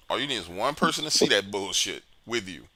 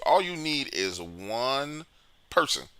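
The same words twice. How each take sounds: First: Said in the usual way. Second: All you need is one person, drawn out slowly with a rise on all; slow emphatic delivery. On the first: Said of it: "repeated at normal pace". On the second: Shown as a demonstration. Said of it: "stressed slow phrase".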